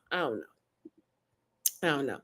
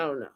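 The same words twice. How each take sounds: First: Quiet despair. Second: Said in the usual way. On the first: Real, not acted.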